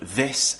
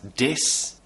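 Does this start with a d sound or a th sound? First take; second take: th sound; d sound. First: It starts with a th sound. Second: It starts with a d sound. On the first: The speaker calls it right. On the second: The speaker calls it wrong.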